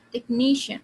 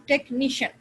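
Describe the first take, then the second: First: "टेक्नीशियन" with NI punched loud; louder, longer NI in "टेक्नीशियन", light ending; stress before the ending. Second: "टेक्नीशियन" with every syllable hit equally; wrongly even, punched "टेक्नीशियन"; all syllables stressed. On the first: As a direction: hit the middle syllable NI in "टेक्नीशियन". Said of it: "The syllable before the ending". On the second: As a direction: stress all three parts of "टेक्नीशियन" alike. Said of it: "तीनों को stress कर देते हैं". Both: Shown as a demonstration.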